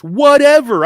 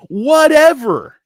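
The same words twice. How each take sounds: First: Loud, high dismissive whatever; mock shouted whatever. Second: Loud, high, slow whatever; drawn-out mock shout. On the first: Tough trader brushing off risk, loud dismissive shout. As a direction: yell it off like nothing matters. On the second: Trader bragging he risks everything, slow loud shout. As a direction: stretch it out and shrug it off loudly.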